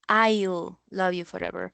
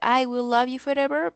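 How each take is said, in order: First: The words I will are contracted to I'll. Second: The words I will are said in full. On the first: "vamos a decir algo como" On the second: "en vez de"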